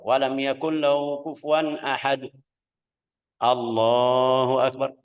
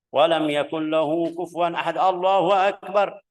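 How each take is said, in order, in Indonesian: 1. Ada jeda singkat sebelum frasa terakhir. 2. Ayat ini langsung menyambung ke frasa berikutnya. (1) "Terus ada diam sedikit juga"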